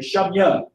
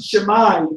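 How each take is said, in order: First: The word ends with a 'ya' sound. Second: The word ends with an 'ai' sound. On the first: The speaker calls it right. "With the Ya at the end" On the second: The speaker calls it wrong. "I pronounce it Shemai, I'm not going to understand"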